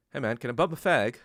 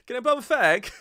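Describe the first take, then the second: First: Lightly voiced British coworker, close to own voice; British coworker quote. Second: High, loud hammed-up British voice; mock British accent. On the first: British coworker asking a friend for a cigarette, barely accented. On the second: Mocking the British manager's cigarette request, high and loud. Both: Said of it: "he was British".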